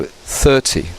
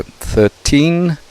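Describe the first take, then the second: First: Thirty with the weight on THIR, falling; thirty, first syllable stressed and falling. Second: Put-on thirteen with the weight on TEEN; thirteen, last syllable stressed. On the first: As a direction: hit the start of thirty. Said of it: "we stress the beginning bit". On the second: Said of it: "we stress the teen". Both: Shown as a demonstration.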